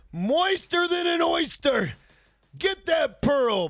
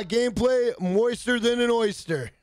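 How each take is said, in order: First: Drawn-out shouted hype line; slow excited shout; hyped shout. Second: Said in the usual way. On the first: Real, not acted. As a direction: belt it out, slow and high. Streamer hyping chat's oyster line.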